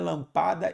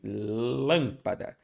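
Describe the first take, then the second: First: The stress falls on a later syllable. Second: The stress falls on the first syllable. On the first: The speaker calls it wrong. "não é lampada" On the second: The speaker calls it right. "sílaba tônica é o lã"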